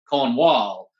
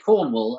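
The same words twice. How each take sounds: First: It is said in an American way. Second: It is said in a British way. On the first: "you spent the whole thing going Cornwall" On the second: "we say Cornwall"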